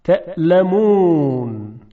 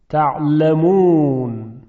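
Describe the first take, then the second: First: Slow تعلمون with a glottal stop after the first vowel; hamza pronunciation. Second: Slow تعلمون with a squeezed throat ع; ayn pronunciation. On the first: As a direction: say تعلمون with a clean catch, تَأْلمون. (تلفظ تعلمون با همزه، کشیده و شمرده) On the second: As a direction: say تعلمون with a full pharyngeal ayn. (تلفظ تعلمون با عین حلقی، کشیده و شمرده) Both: Shown as a demonstration. Teacher contrasts hamza with ayn.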